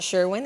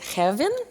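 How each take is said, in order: First: The name is said with an English pronunciation. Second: The name is said with a Swedish pronunciation. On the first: The speaker calls it wrong. "I've been mispronouncing my family name my entire life. It is not Sherwin" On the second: The speaker calls it right. "it is Hevin. Did I get that better?"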